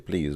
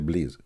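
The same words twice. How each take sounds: First: It is said in a plain, non-Arabic accent. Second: It is said in an Arabic accent. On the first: "we don't say please"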